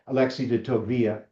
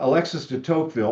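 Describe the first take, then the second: First: The name is said with French sounds. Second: The name is said with English sounds. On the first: The speaker calls it right. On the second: The speaker calls it wrong.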